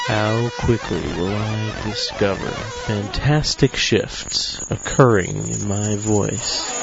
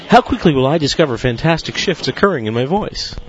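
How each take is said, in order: First: It is spoken at a moderate, steady pace. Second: It is spoken at a very rapid pace.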